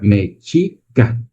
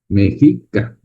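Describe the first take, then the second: First: The middle consonant sounds like ch. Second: The middle consonant sounds like a Spanish j. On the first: This is the original Nahuatl pronunciation. "La X se pronuncia como ch" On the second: This is how the Spanish pronounced it. "lo pronunciaban como J"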